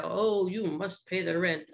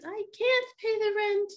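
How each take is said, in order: First: Lightly voiced mean landlord; a hint of a sneering villain; melodrama villain. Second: High pleading melodrama damsel; damsel in distress. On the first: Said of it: "the mean, um, guy". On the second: Acted. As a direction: squeal it out like a helpless heroine. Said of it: "damsel answers villain".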